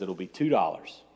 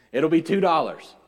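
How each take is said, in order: First: Said in the usual way. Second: Louder, higher repeat of the price; emphatic waitress quote. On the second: Retold or imitated. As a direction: announce the total emphatically, voice raised. Waitress's price repeated after aside.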